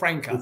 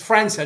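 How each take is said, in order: First: The consonant before the last vowel sounds like k. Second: The consonant before the last vowel sounds like s. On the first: The speaker calls it wrong. "not Franca" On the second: The speaker calls it right. "sorry, it's Franca"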